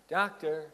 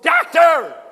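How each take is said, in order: First: It is said limply with little energy. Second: It is shouted with big energy.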